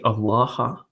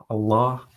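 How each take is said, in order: First: "Allah" with an added final "ha" syllable; Aramaic pronunciation. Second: Said in the usual way. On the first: Shown as a demonstration. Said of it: "as it's pronounced in Aramaic". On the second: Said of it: "or you can say Allah".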